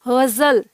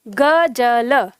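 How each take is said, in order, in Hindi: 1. बीच का व्यंजन गुंजन वाला z ध्वनि है। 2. बीच का व्यंजन सादा j ध्वनि है। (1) "ना कि गजल" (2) "ये है ग ज ल"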